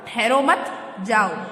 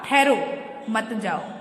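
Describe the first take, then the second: First: The pause comes after "मत". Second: The pause comes after "ठहरो".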